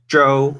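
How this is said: The name is said with a Chinese pronunciation. "the correct Chinese pronunciation is Zhou"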